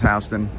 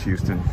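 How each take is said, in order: First: It uses the local New York pronunciation. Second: It uses the pronunciation heard outside New York. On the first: This is how locals name the street. "In New York, it's pronounced Houston" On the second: This is how the name is said in other places. "Other places pronounce Houston"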